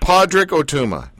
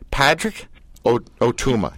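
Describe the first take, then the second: First: The first name begins with a 'pod' sound. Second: The first name begins with a 'pat' sound.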